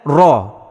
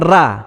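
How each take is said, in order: First: The r sound is pronounced thick and heavy. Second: The r sound is pronounced thin and light. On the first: The speaker calls it right. "bukan dengan ra" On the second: The speaker calls it wrong. "kebanyakannya membaca dengan ra"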